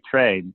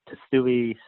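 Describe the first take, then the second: First: The name sounds like "Trey". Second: The name sounds like "Tsui". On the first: The person saying it knows the speaker. The speaker calls it right. "when someone knows me, they say Trey" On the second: The person saying it does not know the speaker. The speaker calls it wrong. "They don't know me. It's always Tsui"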